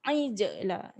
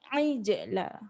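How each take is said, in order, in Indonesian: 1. Bunyi j punya pantulan yang bergema. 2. Bunyi j punya pantulan yang bergema.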